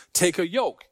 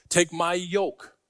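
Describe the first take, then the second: First: Said in the usual way. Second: "Take" stretched and leaned on, slow; stressed take. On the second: Shown as a demonstration. Preacher to congregation repeating the verse, slow stress on "Take". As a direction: draw out "Take" before "my yoke".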